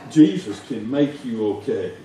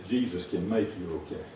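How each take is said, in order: First: Louder, firm declaration; firm proclamation. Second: Low, soft, gentle promise; soft assurance. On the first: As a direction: proclaim it boldly. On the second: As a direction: say it softly first. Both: Shown as a demonstration.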